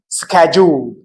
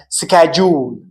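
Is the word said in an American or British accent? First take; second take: American; American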